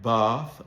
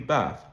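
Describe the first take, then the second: First: The vowel is a long, broad ah sound. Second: The vowel falls between the flat and broad sounds. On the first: "the bath lexical set that you hear in Southern Standard British English" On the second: "the vowel sound is a bit in between"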